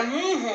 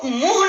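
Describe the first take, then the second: First: मुंह said softer, the उ hummed through the nose; nasalised vowel. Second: मुंह said as मुह, with an oral उ; no nasal sound. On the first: Teacher shows children how it is said, nasalised vowel. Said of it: "मुंह बोला जाता है". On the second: Teacher shows children how it is not said, without nasality. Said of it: "मुंह नहीं बोला जाता". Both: Shown as a demonstration.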